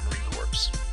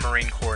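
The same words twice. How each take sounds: First: Corps sounds like corpse, ending in a ps sound. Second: Corps sounds like core, with no final consonants. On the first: The speaker calls it wrong. "not Marine Corps" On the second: The speaker calls it right. "it's pronounced Core, like Marine Corps"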